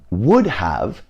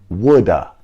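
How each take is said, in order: First: Both words are said fully, with a clear 'have'. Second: 'Have' is reduced to a weak schwa sound. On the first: "would have becomes woulda" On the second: "becomes woulda"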